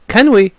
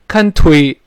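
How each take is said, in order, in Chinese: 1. t 音脱落，没有爆破。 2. t 音很重，爆破清楚。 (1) "干脆这个t 就失去爆破了" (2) "不能说can't we can't we 不行啊"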